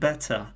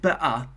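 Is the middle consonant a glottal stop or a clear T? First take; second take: clear T; glottal stop. First: The middle T is pronounced as a clear T. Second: The middle T is replaced by a glottal stop.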